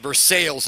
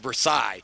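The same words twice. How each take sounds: First: It is said with an Americanized pronunciation. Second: It is said with the original French pronunciation. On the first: This is the local Indiana town name. The speaker calls it wrong. "we love to mispronounce them" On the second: This is the original European place name. The speaker calls it right. "instead of"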